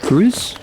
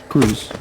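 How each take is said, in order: First: Grooves? rising high like a question. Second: Grooves. dropped low and falling; flat statement. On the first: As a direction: ask Grooves? with a puzzled upward lift. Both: Shown as a demonstration.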